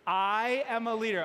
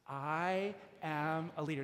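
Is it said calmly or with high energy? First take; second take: high energy; calmly. First: It is said with more enthusiasm and energy. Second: It is said calmly, with plain energy.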